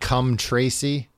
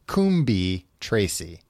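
First: The first word is said shortened, like 'cum'. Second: The first word is said the way it is spelled. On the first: "Some of those letters are probably silent, right? It's probably just like cum Tracy" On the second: "I think I'm saying that right"

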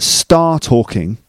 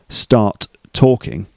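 First: The first t is dropped with no gap. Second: Both t sounds are pronounced separately.

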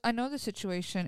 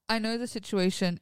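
First: It is spoken in an American accent. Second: It is spoken in a non-American accent. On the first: The speaker calls it wrong. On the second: The speaker calls it right.

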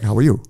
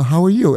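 First: It sounds automatic and routine. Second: It sounds sincere and warm.

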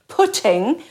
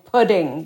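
First: The T is an affricated, slit sound. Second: The T is a quick flapped sound. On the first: This is the older Irish English way of saying it. "which is an affricated T, a slit T" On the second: This is an American-style way younger people say it. "the kids saying pudding with the flap"

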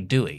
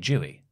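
First: The word begins with a plain D sound. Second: The word begins with a J sound. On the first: This is how other speakers say it. "They say Dewey" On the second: This is how the speaker's own group says it.

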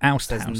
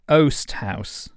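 First: The first word has the vowel of 'out'. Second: The first word has the vowel of 'coast'. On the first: The speaker calls it wrong. "I pronounced it oust house" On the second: The speaker calls it right. "As in coast house?"

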